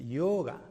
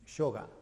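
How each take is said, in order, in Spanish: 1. La palabra empieza con una semiconsonante y suave. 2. La palabra empieza con una consonante y más firme. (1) "en sánscrito se pronuncia yoga, porque está la letra ya" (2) "no es yoga"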